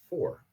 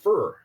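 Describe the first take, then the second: First: The vowel is the standard 'for' sound. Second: The vowel sounds like 'fur', Iowan style.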